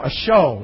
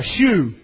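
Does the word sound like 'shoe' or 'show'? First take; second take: show; shoe. First: The vowel sounds like the vowel in 'show'. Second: The vowel sounds like the vowel in 'shoe'. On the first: This is the modern form of the word. "A show is what it's saying" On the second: This is the old written form of the word. "we pronounce it different anyway"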